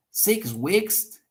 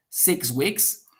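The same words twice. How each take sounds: First: SIX WEEKS higher, rising in exclamation; emphatic repeat. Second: Said in the usual way. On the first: Shown as a demonstration. Second speaker repeating what the first said, emphatic. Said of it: "So he's doing emphasis". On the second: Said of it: "the first speaker said".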